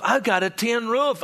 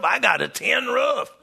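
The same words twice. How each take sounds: First: Raised, eager retelling of a friend's pride; excited boast. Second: Joyful shout. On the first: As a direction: show off the new tin roof, building. Pastor retells Joseph's excited boast. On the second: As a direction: shout it out like proud news. Repeated, now shouted with joy. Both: Retold or imitated.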